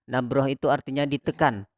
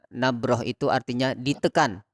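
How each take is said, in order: The two takes are said the same way.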